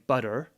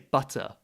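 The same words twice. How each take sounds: First: The T in the middle is soft. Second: The T in the middle is strong. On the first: The speaker calls it wrong. "rather than saying" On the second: The speaker calls it right. "Pronounce the T stronger than Americans would"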